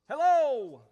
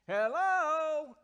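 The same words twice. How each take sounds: First: The word is said short. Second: The word is stretched out long.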